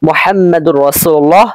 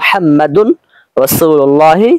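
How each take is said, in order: First: The n sound merges into a doubled r. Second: A clear n sound comes before the r. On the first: The speaker calls it wrong. "এরকম বলতে পারবো না" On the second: The speaker calls it right. "বরং আমাদের বলতে হবে"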